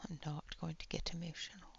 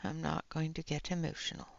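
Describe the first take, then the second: First: Fast breathless whisper to herself. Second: Said in the usual way. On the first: Real, not acted. To stream chat, fighting tears, fast whisper. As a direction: whisper it quickly, holding back tears.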